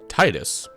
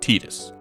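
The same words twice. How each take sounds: First: The first syllable sounds like 'tie'. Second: The first syllable sounds like 'tee'. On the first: "I'm in the camp of the folks who read T I D U S as" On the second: "there's a pretty convincing argument that it should be pronounced"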